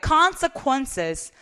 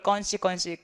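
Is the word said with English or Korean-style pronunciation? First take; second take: English; Korean-style. First: It is said with full English sounds and syllables. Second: It is said as a clipped Korean-style syllable string. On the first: The speaker calls it right. "당연히 consequences로 읽어야 되겠죠" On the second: The speaker calls it wrong. "로지컬 건시건시라고 발음하시는 분 되게 많았어요"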